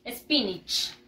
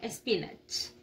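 First: SPINACH said "SPIN-ich", short I in the last syllable; English pronunciation. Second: SPINACH read as spelt, Spanish-style "es-pi-nach"; spelling pronunciation. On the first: Teacher showing children how it is pronounced, SPINACH as "SPIN-ich". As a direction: model SPINACH as "spinich", not "spinach" with an A. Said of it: "Y se pronuncia". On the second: Teacher showing children how it is written, spelling pronunciation of SPINACH as "es-pi-nach". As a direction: say SPINACH with a clear A in the last syllable, "espinach". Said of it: "Se escribe así".

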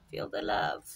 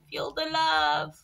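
First: Breathy whispered feel the love; soft whisper, teasing the sticker. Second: Said in the usual way. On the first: Pretend. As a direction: breathe it out softly, no voice. Repeats the phrase in a whisper.

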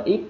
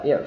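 First: "if" cut off with no breath on the f; missing final F. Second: "if" finished with an audible f; released final F. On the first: Teacher showing the mistake, "if" with its final sound missing. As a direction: stop "if" short, swallowing its final f. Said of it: "If thì chúng ta thiếu cái âm của nó". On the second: Teacher correcting the mistake, "if" with the final breath released. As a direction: push air out on the f of "if". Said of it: "Có cái hơi bật ra này". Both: Shown as a demonstration.

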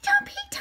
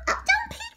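First: Whispered warning. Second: Squeaky high plea of oh, don't peek; squealed warning. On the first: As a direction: whisper don't peek with no voice. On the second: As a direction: squeal it up high like a giddy child. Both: Acted. Playful warning not to look.

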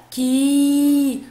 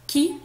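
First: "كي" held long as "kiii"; long vowel. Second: Short "كي", a quick "ki"; short vowel. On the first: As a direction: stretch out the "i" in "كي". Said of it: "صوت طويل". ("كي" بصوت طويل ممدود) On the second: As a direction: cut the "i" of "كي" short. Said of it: "صوت قصير". ("كي" بصوت قصير مكسور) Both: Shown as a demonstration.

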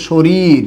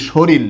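First: শরীর as "shorir", ending in r; standard pronunciation. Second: শরীর as "shoril", ending in l; common mispronunciation. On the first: Teacher gives a very common word, ending it in r. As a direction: keep both r sounds in শরীর. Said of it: "এটাকে উচ্চারণ করি". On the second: Teacher shows how most Bengalis say it, ending in l. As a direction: turn the last r of শরীর into l. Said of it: "সকল বাঙালিরাই এটাকে উচ্চারণ করি". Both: Shown as a demonstration.

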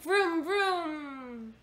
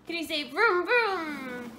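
First: Playful car vroom, high; airplane spoon game. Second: Airplane spoon game. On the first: Shown as a demonstration. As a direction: make a car noise for the baby. Car noise for toddler. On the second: Real, not acted. Teaching toddler car sound.

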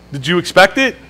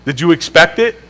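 The two takes are said the same way.

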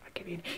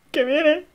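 First: Whispering. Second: Alarmed. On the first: Hiding from neighbour. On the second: Panic rising. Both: Real, not acted.

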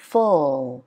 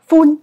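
First: "full" long, low and falling; falling English ending. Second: "full" high, loud, no fall; wrong level ending. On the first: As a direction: slide "full" slowly down. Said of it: "Đúng rồi, đi xuống". (đọc "full" kéo dài, đi xuống) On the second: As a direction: punch "full" up without sliding down. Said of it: "nó cũng không hẳn là". (đọc "full" cao, không xuống giọng) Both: Shown as a demonstration.

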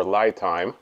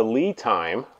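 First: "Lai Time" with Lai rhyming with eye; LIE pronunciation. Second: "Lee Time" with Lee rhyming with see; LEE pronunciation. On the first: Reviewer offers the other way to say the battery brand, "Lai" like lie. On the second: Reviewer offers one way to say the battery brand, "Lee" with long ee. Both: Shown as a demonstration. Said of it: "depending on, I guess, where you're from".

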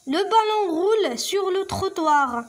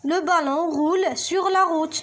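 First: Higher, very slow reading; slow teacher read; slow statement read. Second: Careful contrast reading; stress on la. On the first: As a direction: read it out slowly for pupils. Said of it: "Vrai ou faux?". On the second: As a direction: check the text, stress la. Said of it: "نرجعو للنص ديالنا". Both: Shown as a demonstration.

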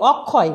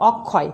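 First: অক্ষয় with closed "o" first vowel, as "ok-khoy"; rejected O form. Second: অক্ষয় with open "aw" first vowel; natural vowel. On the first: Teacher showing what was not said, অক্ষয় with closed o. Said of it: "এখানে অক্ষয় বলিনি". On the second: Teacher giving the correct form, অক্ষয় with open aw. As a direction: say অক্ষয় as "awk-khoy". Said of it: "আমি বলেছি". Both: Shown as a demonstration.

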